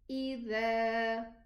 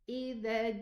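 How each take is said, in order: First: The final vowel is held for two counts. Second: The final vowel is cut short. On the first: The speaker calls it right. "So don't forget the alif" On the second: The speaker calls it wrong. "Don't say either ja, either ja. No. In this case, we haven't pronounced the alif"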